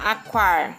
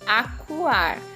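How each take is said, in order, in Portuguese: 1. O 'cua' se junta numa sílaba só. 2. O 'cu' e o 'a' são duas sílabas separadas. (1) "a gente não fala aquar" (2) "a gente fala acuar"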